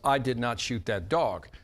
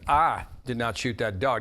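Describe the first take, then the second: First: No single word gets special stress. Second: The word I gets strong stress. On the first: It is a plain statement of fact. "that's a statement of fact" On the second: Someone else did it. "That means I didn't do it, somebody else did it"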